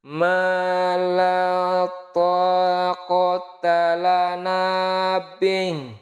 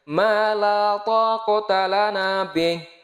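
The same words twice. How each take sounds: First: It is recited at the slowest tempo. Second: It is recited at a fluent, faster tempo. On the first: "Coba kita turunkan lagi temponya lebih lambat dikit" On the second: "itu kalau kategorinya lancar"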